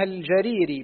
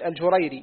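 First: الجريري as al-jarīrī, a then long ī; fatha on jim. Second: الجريري as al-jurayrī, u then ay; damma on jim. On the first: Student reading names to his teacher, الجريري as al-jarīrī. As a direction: open the ج of الجريري with a. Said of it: "بفتح الجيم". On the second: Student repeating for his teacher, الجريري as al-jurayrī. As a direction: round the ج of الجريري with u. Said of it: "بالجيم المضمومة". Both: Shown as a demonstration.

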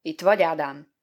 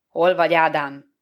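First: Said in the usual way. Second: Loud, stern summons; loud, wrathful questioning; angry call. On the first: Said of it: "aztán ismét kérdezte". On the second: A narrator's reading. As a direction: call out angrily at full voice, without raising pitch. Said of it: "kiáltott haragosan a közeledő".

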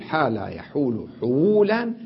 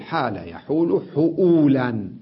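First: حولا said with a plain waw and no glottal stop; form without hamza. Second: حؤولا said with a clear glottal stop on the waw; form with hamza. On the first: Teacher showing students the waw form, plain and clear. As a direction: say حولا with a smooth waw, no catch. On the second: Teacher showing students the hamza form, clearly marked. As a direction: put a distinct hamza catch in حؤولا. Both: Shown as a demonstration. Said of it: "فيجوز أن أقلبها ويجوز أن أبقيها".

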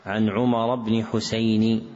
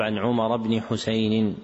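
First: حسين ending "Husayni", without an extra n; no tanween. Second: حسين ending "Husaynin"; tanween kasr. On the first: Teacher citing a misprint, حسين without tanween. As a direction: slowly end حسين in a single short "i". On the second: Teacher correcting the misprint, حسين with tanween. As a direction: add a final "-in" to حسين. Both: Shown as a demonstration. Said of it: "والصواب".

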